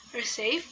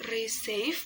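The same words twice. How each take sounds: First: Said in the usual way. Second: "receive" drawn out as two syllables; teacher's careful syllable split of "receive". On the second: Shown as a demonstration. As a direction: break "receive" slowly into its syllables. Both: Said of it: "the syllable is receive".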